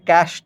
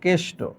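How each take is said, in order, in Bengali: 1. প্রথম স্বরধ্বনিটি একটি খোলা 'ae' ধ্বনি। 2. প্রথম স্বরধ্বনিটি একটি সংকীর্ণ 'e' ধ্বনি। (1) "এটাকে ক্যাষ্ট বলা যাবে না" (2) "বলতে হবে কেষ্ট"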